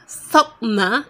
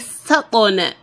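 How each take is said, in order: First: The q sound is held without release. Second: The q sound is released with a bounce. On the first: The speaker calls it wrong. "Sakna is wrong" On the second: The speaker calls it right. "You are to say sakona. Sakona, you make the kolkola"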